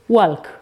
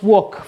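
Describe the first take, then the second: First: The word is sounded out as spelled. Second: The word is said the usual way. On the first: The speaker calls it wrong. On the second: The speaker calls it right.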